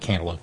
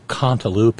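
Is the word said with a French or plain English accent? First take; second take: English; French. First: It is said in a plain English accent. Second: It is said in a put-on French accent.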